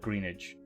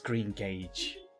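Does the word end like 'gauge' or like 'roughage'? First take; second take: roughage; gauge. First: The ending sounds like the end of 'roughage'. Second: The ending sounds like the word 'gauge'. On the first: The speaker calls it wrong. "I'm gonna call it greenage" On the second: The speaker calls it right. "I know it's green gauge"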